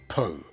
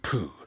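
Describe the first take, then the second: First: The vowel sounds like oh. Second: The vowel sounds like oo. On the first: This is the speaker's real name. The speaker calls it right. "It is Po" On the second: This has a different meaning. The speaker calls it wrong. "not Poo"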